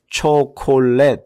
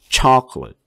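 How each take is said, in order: First: Every syllable has a full, clear vowel. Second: The unstressed vowels are light, neutral schwa sounds. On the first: The speaker calls it wrong. "초콜릿 하지 말고" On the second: The speaker calls it right. "chocolate 이렇게 중성모음 소리로다가 바꿔서 가볍게 하세요"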